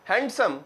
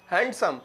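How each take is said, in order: Both takes have the same delivery.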